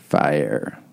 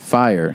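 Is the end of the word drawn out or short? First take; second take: drawn out; short. First: The word ends drawn out, in a creaky voice. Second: The word ends short, in a clear voice. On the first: "She said fire. ... how ire is extended?" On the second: "She didn't say fire"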